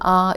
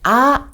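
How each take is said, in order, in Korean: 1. 이 모음은 입을 거의 벌리지 않고 냅니다. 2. 이 모음은 입을 크게 벌리고 냅니다. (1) "이 정도 합니다. 입을 크게 벌리지 않아요" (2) "이렇게 크게 크게 벌려야 하는 거거든요"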